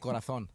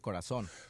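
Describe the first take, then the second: First: The z is pronounced like th, lisped. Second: The z is pronounced like a plain s. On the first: This is how people from Spain say it. "Give me a word that they pronounce differently" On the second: This is how the speaker says it himself. "now how would you pronounce it?"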